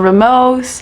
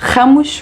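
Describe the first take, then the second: First: It starts with an English-style R sound. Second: It starts with a hard Portuguese R sound. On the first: The speaker calls it wrong. "A lot of people in English pronounce it" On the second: The speaker calls it right. "it's Ramos with the hard R"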